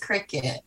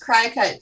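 First: It sounds like the insect's name. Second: It does not sound like the insect's name. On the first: The speaker calls it right. "but it's Cricut. Like, little insect" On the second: The speaker calls it wrong. "I thought it was Cricut too"

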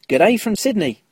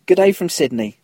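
First: It is said in a put-on Australian accent. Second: It is said in the speaker's normal accent.

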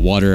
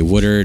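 First: The word is said in a standard accent. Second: The word is said in a Philadelphia accent. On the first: This is how the speaker does not say it. "not water" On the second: This is how the speaker naturally says it. "I say water, I'm from the Philly area"

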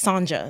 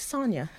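First: The middle consonant is a J sound. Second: The middle consonant is a Y sound. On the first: The speaker calls it wrong. "they pronounce every letter the way it's supposed to sound" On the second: The speaker calls it right. "it's pronounced as Sonia because the J is, you know, pronounced as a Y"

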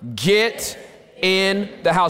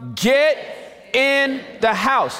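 First: It is said somewhat louder. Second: It is said very loudly. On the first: "a little bit louder" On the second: "real loud"

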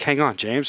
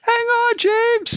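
First: It is said flatly and calmly. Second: It is screamed loudly.

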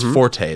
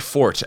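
First: It is said as two syllables, like 'for-tay'. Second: It is said as one syllable, like 'fort'. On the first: It is the musical term. "That's forte. That is musical" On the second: It means a strength or special skill. "That's actually how you pronounce that word"

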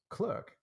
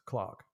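First: The vowel sounds like 'er', as in 'her'. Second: The vowel sounds like 'ar', as in 'car'. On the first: This is the American way of saying it. "an American person would pronounce Clerk" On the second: This is the British way of saying it. "a British person would pronounce Clark"

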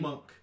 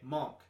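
First: The vowel sounds like the 'u' in 'up'. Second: The vowel sounds like the 'o' in 'on'. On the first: The speaker calls it right. "Apparently it's M-U-N-K" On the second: The speaker calls it wrong.

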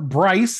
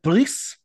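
First: The name is said the American way. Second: The name is said the French way.

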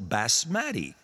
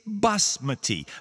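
First: The stress is on the second syllable. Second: The stress is on the first syllable. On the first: The speaker calls it wrong. "someone would probably accent it on the second syllable" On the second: The speaker calls it right. "The accent is on the first syllable"

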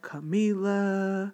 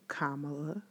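First: The stress falls on a later syllable. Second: The stress falls on the first syllable. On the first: The speaker calls it wrong. "I know too many people that call her Kamala" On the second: The speaker calls it right. "Emphasis on the first syllable"

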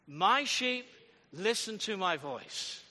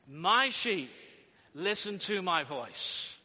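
First: It is said plainly, without much force. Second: It is said firmly, with strong conviction.

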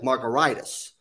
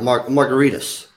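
First: It sounds like a medical inflammation word. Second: It sounds like the cocktail margarita. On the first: The speaker calls it wrong. "it's spelled more like an inflammation" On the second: The speaker calls it right. "It's pronounced like a cocktail"

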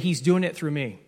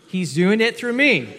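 First: It is said plainly, without special emphasis. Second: It is said with strong, emphatic conviction.

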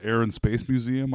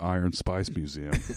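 First: It is said in a plain American accent. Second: It is said in an Australian accent.

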